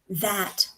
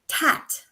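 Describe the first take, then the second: First: It begins with a soft 'th' sound. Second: It begins with a hard 't' sound. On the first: The speaker calls it right. "instead of this" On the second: The speaker calls it wrong. "you end up with words like"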